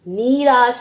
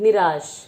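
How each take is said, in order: First: The first vowel is drawn out long. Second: The first vowel is said short and quick. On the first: The speaker calls it wrong. "निराश नहीं बोल रहे हैं" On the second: The speaker calls it right. "छोटी ई की मात्रा का ही उच्चारण कर रहे हैं"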